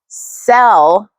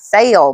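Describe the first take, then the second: First: The vowel is short, like in bet. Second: The vowel is drawn out, like in bait. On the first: "that one specific word that I say, sell" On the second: "it always comes out as sale"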